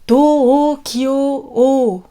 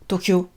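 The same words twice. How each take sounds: First: The o vowels are long, four syllables. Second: The o vowels are short, two syllables. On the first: The speaker calls it right. "Quatre syllabes. On allonge les O" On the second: The speaker calls it wrong. "on ne dit pas Tokyo"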